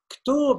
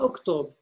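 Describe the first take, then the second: First: The word starts directly with a consonant. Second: The word starts with a vowel. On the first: The speaker calls it right. "Ktob et non pas oktob" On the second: The speaker calls it wrong. "et non pas oktob"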